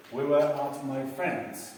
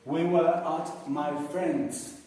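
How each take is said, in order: First: Slow repeat. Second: Slow model sentence. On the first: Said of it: "Entonces, la misma historia". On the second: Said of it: "la misma historia". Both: Shown as a demonstration.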